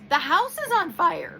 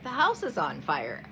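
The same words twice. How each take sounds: First: It is said with a raised, louder voice. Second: It is said at a normal speaking volume. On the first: The warning is being ignored, so it escalates. "I'm going to raise my voice" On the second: A first calm warning. "I might be like"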